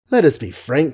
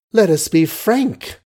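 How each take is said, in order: First: Said in the usual way. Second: Higher, slow indignant echo; cried with a catch. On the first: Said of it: "queried with a smile". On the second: A narrator's reading. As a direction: throw the words back in a raised, hurt cry. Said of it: "cried, with a little catch in her voice".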